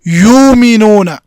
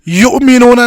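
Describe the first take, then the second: First: The first vowel is lengthened with no stop. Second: A glottal stop follows the first vowel. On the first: The speaker calls it right. "बल्कि यूमिनूना" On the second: The speaker calls it wrong. "युमिनूना नहीं पढ़ेंगे"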